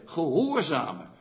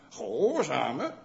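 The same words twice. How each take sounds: First: "Gehoorzamen" said as a plain statement, pitch falling at the end. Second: "Gehoorzamen" asked back, pitch rising at the end; questioning rise. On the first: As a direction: present the word "Gehoorzamen" with a settled falling tune. ("Gehoorzamen" met dalende toon als mededeling) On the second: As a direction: repeat the word "Gehoorzamen" as a puzzled question, rising tune. ("Gehoorzamen" vragend, met stijgende toon) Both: Shown as a demonstration. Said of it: "Dat is een oud Nederlands werkwoord".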